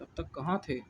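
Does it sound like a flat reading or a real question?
real question. It sounds questioning, with emphasis on कहाँ. The speaker is really asking where someone was. The speaker calls it right. "इस तरह से, ... इस पर जोर देकर, कहाँ पे"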